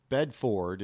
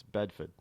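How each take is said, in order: First: Bedford slowly with a full FORD, bed-FORD; wrong pronunciation. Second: Bedford with a swallowed ending, BED-fid; local pronunciation. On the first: Host showing what not to say, Bedford as bed-FORD. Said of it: "Bedford is not Bedford". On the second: Host correcting for listeners, Bedford said locally as BED-fid. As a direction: say Bedford as BED-f'd, second vowel reduced. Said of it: "It's Bedford". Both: Shown as a demonstration.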